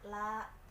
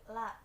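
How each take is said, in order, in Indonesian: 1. Vokalnya diucapkan panjang. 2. Vokalnya dipotong pendek. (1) "seharusnya dibaca panjang" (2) "tidak panjang"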